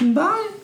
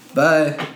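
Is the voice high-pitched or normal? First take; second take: high-pitched; normal. First: It is said in a high-pitched voice. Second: It is said in a normal voice.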